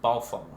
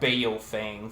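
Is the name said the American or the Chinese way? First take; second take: Chinese; American. First: The name is said with Chinese pronunciation. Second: The name is said with American English pronunciation. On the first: This is the original pronunciation. "the actual enunciation is Baofeng" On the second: This is an approximation for non-speakers. "for us Americans that can't speak Chinese"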